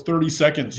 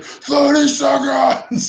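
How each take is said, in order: First: Said in the usual way. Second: Drawn-out high-pitched mock yell; Jason Statham yell. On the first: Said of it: "He's like". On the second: Film fan quoting a favourite throwaway line, imitated yell. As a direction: stretch it into a high imitated holler. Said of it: "where Jason Statham yells".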